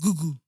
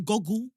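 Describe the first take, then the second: First: The first vowel is a long 'oo' sound. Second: The first vowel is a short 'o' sound.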